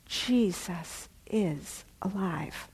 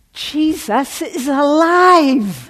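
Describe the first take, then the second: First: Slow, soft, reverent realization; hushed awe. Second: Slow, high, loud joyful cry with laughter; ecstatic shout. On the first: Friend describing her walk, hushed awe. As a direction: breathe it like a revelation. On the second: Friend calling at work with news, joyful shout. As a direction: shout the news like you can't contain it. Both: Retold or imitated.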